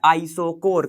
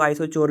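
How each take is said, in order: First: आइसोकोर with a hard k sound in the last syllable; pronounced with K. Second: आइसोचोर with a ch sound in the last syllable; pronounced with CH. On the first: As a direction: say आइसोकोर, "kor" at the end, not "chor". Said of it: "इसको बोला जाता है". (आइसोकोर, आख़िर में "क" की आवाज़ के साथ) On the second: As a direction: say आइसोचोर, "chor" at the end, not "kor". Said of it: "कई लोग आइसोचोर भी बोल देते हैं". (आइसोचोर, आख़िर में "च" की आवाज़ के साथ) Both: Shown as a demonstration.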